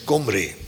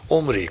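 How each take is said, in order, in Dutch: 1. De naam begint met een keelmedeklinker. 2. De naam begint meteen met een klinker.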